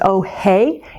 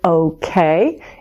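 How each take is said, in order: First: The word is slurred into 'oh hey'. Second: The word is said clearly as 'okay'. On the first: The speaker calls it wrong. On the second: The speaker calls it right.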